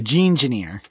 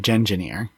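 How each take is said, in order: First: The first syllable has a long vowel, like 'gene'. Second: The first syllable has a short vowel, like 'gen'. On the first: The name comes from gene and engineer. "not a gene-geneer" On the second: The name comes from genetic and engineer. "Because it's genetic engineer, a gen-geneer"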